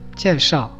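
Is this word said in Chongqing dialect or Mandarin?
Mandarin. The first syllable begins with a palatal sound.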